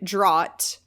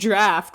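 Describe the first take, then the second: First: The vowel sounds like the one in 'caught'. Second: The vowel sounds like the one in 'laughed'. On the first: The speaker calls it wrong. "I pronounced the word draft wrong" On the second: The speaker calls it right. "it's pronounced draft"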